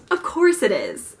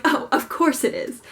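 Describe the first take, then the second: First: Said in the usual way. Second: Breezy, falsely bright resignation; cheerfully. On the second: Retold or imitated. Told the book line is closed, answering with mock cheer. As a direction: pretend it's fine, lightly upbeat. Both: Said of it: "like, cheerfully".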